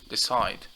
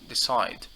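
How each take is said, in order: First: The stress is on the second syllable. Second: The same.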